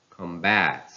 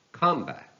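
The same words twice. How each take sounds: First: "combat" as com-BAT; stress on second syllable. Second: "combat" as COM-bat, high start; stress on first syllable. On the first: Teacher reading a verb, "combat" stressed on BAT. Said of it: "stress falls on the second syllable". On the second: Teacher reading a noun, "combat" stressed on COM. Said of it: "stress on the first syllable". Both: Shown as a demonstration.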